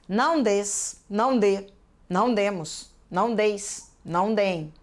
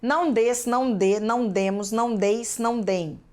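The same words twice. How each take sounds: First: The list is said at an unhurried pace. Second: The list is said quickly.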